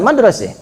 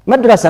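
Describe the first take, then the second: First: The final vowel sounds like e. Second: The final vowel sounds like a.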